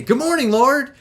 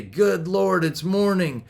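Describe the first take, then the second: First: High, lively wake-up greeting; chirpy early riser, pitched up; bounder's cheery greeting. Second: Mildly acted reluctant riser; groper's morning grumble. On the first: Acted. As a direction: bound out of bed greeting the day. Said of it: "bounders wake up and they say". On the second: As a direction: greet the morning without any enthusiasm. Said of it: "Gropers wake up and they say".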